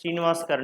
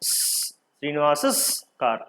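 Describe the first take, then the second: First: No extra syllable follows the name. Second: An extra 'es' syllable follows the name. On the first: The speaker calls it right. "తీసేసి శ్రీనివాస్ car అంటే చాలు" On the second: The speaker calls it wrong. "వినడానికి బాగుందా? బాగలే"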